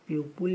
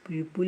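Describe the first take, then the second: The two takes are said the same way.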